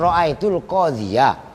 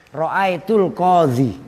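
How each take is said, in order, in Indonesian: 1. Kata terakhir berakhir dengan suku kata '-ya' yang ditambahkan. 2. Kata terakhir berakhir dengan bunyi 'ee' panjang. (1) "harusnya kalau normal enggak wakaf" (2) "ya-nya ada tapi dibaca su, sukun"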